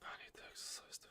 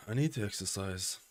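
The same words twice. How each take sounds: First: Breathy whispered repeat. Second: Said in the usual way. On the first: Shown as a demonstration. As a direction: whisper it to yourself.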